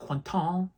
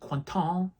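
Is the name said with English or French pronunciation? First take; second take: French; French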